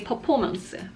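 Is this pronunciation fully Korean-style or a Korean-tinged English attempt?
Korean-style. It is said with a Korean pronunciation. "when I use this word in Korean context, I'll say performance"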